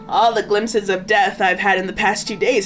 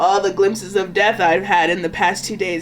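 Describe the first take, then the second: First: It is delivered with more enthusiasm. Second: It is delivered with little enthusiasm. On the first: The speaker calls it right. "Let me try one more time" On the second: The speaker calls it wrong. "I feel like he's more enthusiastic than that"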